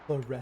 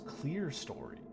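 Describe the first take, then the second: First: The first syllable sounds like the start of cleric. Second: The first syllable sounds like the word clear. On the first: This is the nicer-sounding pronunciation. The speaker calls it right. "it's so much prettier if you're able to say chlorestery" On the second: This is how it is said in American English. The speaker calls it wrong. "in American English, it's clear story, which is even worse"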